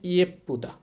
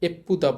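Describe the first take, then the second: First: The word begins with a 'ye' glide. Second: The word begins with a plain 'e' sound. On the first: The speaker calls it right. "এটার উচ্চারণ হবে ইয়েপ্পুদা" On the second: The speaker calls it wrong. "এপ্পুদা বলবো না"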